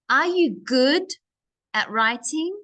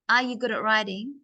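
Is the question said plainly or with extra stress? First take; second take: stressed; plain. First: Some words are said with extra stress and energy. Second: The question is said plainly without extra stress. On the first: "I just put more stress onto these words" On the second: "it's not just are you good at writing?"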